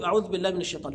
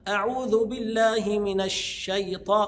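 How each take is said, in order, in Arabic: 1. الكلمة الأولى تنتهي بدون حركة. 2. الكلمة الأولى تنتهي بحركة الضم. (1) "بعض الناس ينطق يقول خطا" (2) "هي ليست ساكنه"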